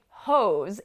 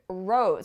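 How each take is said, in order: First: The word begins with an H sound. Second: The word begins with an R sound. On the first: The speaker calls it wrong. "You don't want to think hose" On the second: The speaker calls it right. "you want to think rose"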